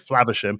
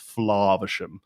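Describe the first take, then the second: First: A Midland English accent with a short A. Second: A posh British accent with a long open A. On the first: "so I would say Flavisham, and it would be perfectly acceptable" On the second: "received pronunciation, British, would it's more of an open vowel sound"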